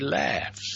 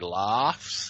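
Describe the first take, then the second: First: It is said in an American accent. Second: It is said in an Australian accent. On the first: "you guys say laughs" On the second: "Australians say laughs"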